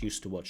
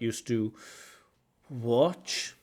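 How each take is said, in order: First: The words run together smoothly, linked. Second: The words are said separately, not linked. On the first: The speaker calls it right. "I'd like that to be connected" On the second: The speaker calls it wrong.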